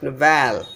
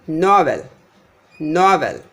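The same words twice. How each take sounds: First: Novel wrongly as no-VEL; stress on second syllable. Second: Novel as NOV-el, falling away; stress on first syllable. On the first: Teacher showing the mistake, novel stressed as no-VEL. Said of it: "If I say the second one is". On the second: Teacher showing correct noun stress, novel as NOV-el. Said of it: "not novel". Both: Shown as a demonstration.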